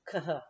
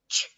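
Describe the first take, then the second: First: Each letter is sounded separately. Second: The letters make one blended sound. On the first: The speaker calls it wrong. "if you tried to do each sound, it would go" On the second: The speaker calls it right. "CH says ch"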